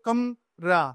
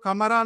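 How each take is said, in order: First: The vowel after m is dropped, splitting kam-ra. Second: Every syllable is said with a full vowel. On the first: The speaker calls it right. "ఈ రెండు divide అవుతాయి, కమ్" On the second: The speaker calls it wrong. "కమరా అనకూడదు"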